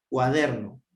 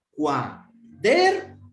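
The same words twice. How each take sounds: First: Said in the usual way. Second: Slow, drawn-out Cuaderno with the weight on DER; stress on DER. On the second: Shown as a demonstration. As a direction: stretch out Cuaderno and lean on DER. (Cuaderno despacio, con fuerza en DER) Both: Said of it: "Dónde está la mayor fuerza de voz".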